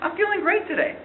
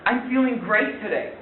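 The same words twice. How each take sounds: First: It is said in a sincere tone. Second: It is said in a sarcastic tone. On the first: The speaker really is feeling great. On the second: The speaker is not actually feeling great.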